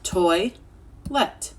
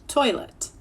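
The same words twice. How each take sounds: First: Toi-let split into two parts; toi, pause, let; two syllables. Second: Said in the usual way. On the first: Shown as a demonstration. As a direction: break toilet at the middle. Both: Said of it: "stretch it out in two syllables".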